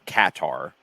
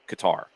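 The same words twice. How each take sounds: First: It does not sound like the word guitar. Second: It sounds like the word guitar. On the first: The speaker calls it wrong. "It is not Qatar or Qatar, as as we're hearing in some places" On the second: The speaker calls it right. "It is closest Qatar, like guitar"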